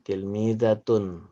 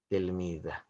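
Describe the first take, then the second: First: The word ends with a full 'tun' ending. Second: The word ends with a soft 'h' sound. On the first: This is how the word is written. "Tulisannya tilmidatun" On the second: This is how the word is pronounced. "Pengucapannya tilmidah"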